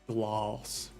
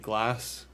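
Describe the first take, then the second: First: The vowel is drawn out, as if with an R. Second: The vowel is a plain short a sound. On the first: This is the English way of saying it. "as if there's a, a U or an R in there" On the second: This is the speaker's own Scottish way. "like I say glass"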